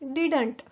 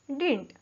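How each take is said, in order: First: The word is said carefully with every sound clear. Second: The word is said quickly with reduced sounds.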